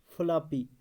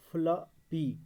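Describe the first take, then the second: First: Said in the usual way. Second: floppy in two beats, flo, pause, py; split into syllables. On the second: Shown as a demonstration. Teacher showing a two-syllable division, split into syllables. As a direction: break floppy clearly before the last syllable. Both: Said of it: "दो syllable division".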